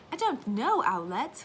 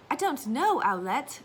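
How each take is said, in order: First: Put-on lightly British little boy, higher and rising; child in a light British accent; retelling son's British accent; British toddler. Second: Put-on lightly British little boy, rising; a hint of a British child's accent; mimicking son's British accent; British toddler. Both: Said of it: "one hundred percent British".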